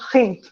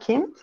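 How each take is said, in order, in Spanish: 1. La palabra empieza con un sonido ch rasposo. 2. La palabra empieza con un sonido k simple. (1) "en alemán suizo se llama" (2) "lo que en alemán estándar se llama"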